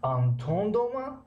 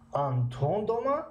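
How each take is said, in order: First: Дома rises, slow and higher; slow question tune rising on дома. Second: Дома rising, slow and higher; slow higher reading ending on дома; second reading. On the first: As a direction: ask it slowly, дома climbing. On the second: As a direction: read it the other way, slow. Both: Shown as a demonstration. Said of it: "Антон домаро ба ду тариқа бихонем".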